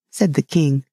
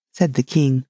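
No difference in how they are said.

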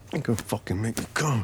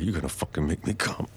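First: Higher, urgent and fast; fast, higher urgent repeat; rising urgency. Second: Said in the usual way. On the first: Acted. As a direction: push it up with rising need. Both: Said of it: "repeated higher".

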